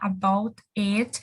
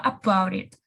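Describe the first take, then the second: First: The two words are said separately, with a break. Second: The two words run together without a break. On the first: "ao invés de falar about it" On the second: "ela fala about it"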